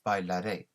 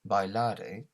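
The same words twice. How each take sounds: First: The stress falls on the last syllable. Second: The stress falls before the last syllable. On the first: The speaker calls it right. "we need to accentuate that last um, syllable" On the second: The speaker calls it wrong. "it's not bailare"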